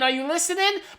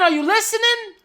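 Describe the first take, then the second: First: It is said as a shout. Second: It is said as a scream.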